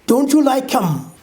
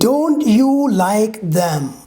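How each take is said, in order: First: The th sound in 'them' is dropped. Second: The th sound in 'them' is clearly pronounced. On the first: "T H is removed completely" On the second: "We speak like this"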